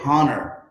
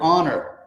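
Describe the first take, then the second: First: The word begins with an audible H sound. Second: The word begins with a vowel, no H. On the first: The speaker calls it wrong. "We don't say honor" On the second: The speaker calls it right. "the word honor, like on your honor"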